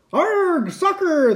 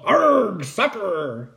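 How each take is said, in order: First: Very high echoing pirate cry; crew yell. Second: High growled 'arg', then falling; pirate yell. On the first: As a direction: echo the captain as a crew. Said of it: "the crew yelled". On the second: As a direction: yell it as the captain kicks. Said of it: "kicked the ball and yelled". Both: A narrator's reading.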